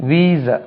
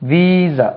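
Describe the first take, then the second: The two takes are said the same way.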